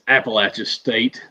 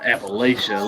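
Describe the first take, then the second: First: Appalachia with a short A and a CH, "latch"; local pronunciation. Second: Appalachia with a long A and SH, "lay-sha"; outsider pronunciation. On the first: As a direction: say Appalachia like "apple-atcha". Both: Shown as a demonstration. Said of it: "not Appalachia, let me tell you".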